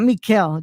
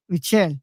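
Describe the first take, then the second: First: Mikel with a hard K, mee-KEL; "Mikel" as the mistaken K version; wrong pronunciation. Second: Michelle with a hard CH, mee-CHELL; "Michelle" with CH, no K sound; corrected pronunciation. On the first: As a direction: say "Mikel" with K where CH belongs. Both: Shown as a demonstration. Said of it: "not Mikel, dude".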